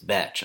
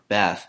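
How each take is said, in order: First: The name ends with a 'ch' sound. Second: The name ends with a soft 'th' sound. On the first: The speaker calls it right. "the correct way to say her name" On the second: The speaker calls it wrong. "I've been calling her Beth"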